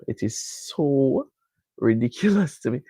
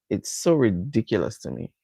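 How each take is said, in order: First: "so" stretched out slowly, each word weighted; slow down and lean on "so ridiculous"; emphatic slow repeat. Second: Said in the usual way. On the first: Real, not acted. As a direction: drag out "it is so" for emphasis. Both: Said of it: "I have to tell you".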